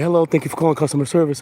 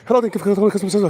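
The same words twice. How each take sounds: First: It is said slowly and warmly. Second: It is said fast and rushed.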